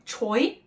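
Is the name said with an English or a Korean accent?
English. It is said with English-style sounds. The speaker calls it wrong. "Or call a person with this surname"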